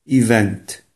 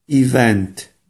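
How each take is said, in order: No difference in how they are said.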